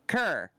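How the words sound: The vowel is a central 'er' sound. "with that Eastern accent"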